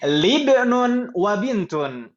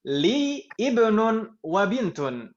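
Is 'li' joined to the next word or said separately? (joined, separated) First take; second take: joined; separated. First: Li is joined directly onto the next word. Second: Li is said separately from the next word. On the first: The speaker calls it right. "seharusnya disambung" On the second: The speaker calls it wrong. "membacanya saya putus"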